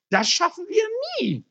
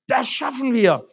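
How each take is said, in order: First: Much higher, puffing hopeless groan; panting despair. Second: Firm, louder, steady answer; confident reassurance. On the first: Exhausted man doubting they can ever finish, panting despair. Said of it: "schnaufte der Mann". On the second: Helper answers the exhausted man, firm confident reassurance. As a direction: reassure him they will manage. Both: Acted.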